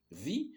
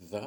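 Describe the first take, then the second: First: "The" said as thee, with a short I sound; "The" pronounced thi before a vowel; "The" as thi before east. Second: "the" said as thuh, short schwa; short "the" with a neutral uh vowel; "the" as thuh before sun; the before a consonant. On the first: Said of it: "c'est un I court, on dit the". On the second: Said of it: "Donc on dit". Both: Shown as a demonstration.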